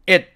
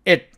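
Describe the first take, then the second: No difference in how they are said.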